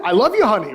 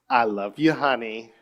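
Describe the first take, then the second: First: Higher, louder, snapped; mock harsh. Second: Mumbled, no warmth; flat, careless. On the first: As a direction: bark it out at your wife. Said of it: "if I say it like that?". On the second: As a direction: toss it off without care. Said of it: "Right, I said it". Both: Shown as a demonstration.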